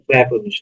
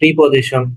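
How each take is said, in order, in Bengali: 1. প্রথম অক্ষরে 'pre' স্বরধ্বনি আছে। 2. প্রথম অক্ষরে 'pri' স্বরধ্বনি আছে। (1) "আসলে প্রেপোজিশনটাই শুদ্ধ উচ্চারণ" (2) "কেউ কেউ বলে প্রিপোজিশন"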